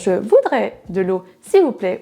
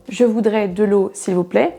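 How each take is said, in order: First: Some words stand out more than others. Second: All words have the same intensity. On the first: The speaker calls it wrong. "On ne va pas dire" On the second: The speaker calls it right. "avec la même intensité"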